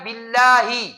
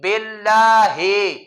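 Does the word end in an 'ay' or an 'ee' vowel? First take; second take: ee; ay. First: The vowels are a clear 'ee' sound. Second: The vowels are an 'ay' sound. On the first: The speaker calls it right. "दूसरा लफ्ज है बिल्लाही" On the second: The speaker calls it wrong. "इस तरह पढ़ते हैं मजहूल, ये ठीक नहीं है"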